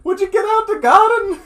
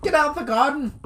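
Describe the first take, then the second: First: Much higher, louder scolding granny; Irish granny. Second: Higher mock granny scold; Irish granny. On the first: Pretend. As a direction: shoo kids out like an Irish granny. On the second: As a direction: bark it like a cross old nan.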